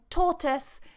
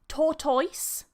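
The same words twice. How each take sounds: First: The second syllable has a weak, short vowel. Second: The second syllable has an 'oy' vowel. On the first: The speaker calls it right. "tortoise is the one in the dictionary" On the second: The speaker calls it wrong. "some people say tortoise ... influenced by this oi here"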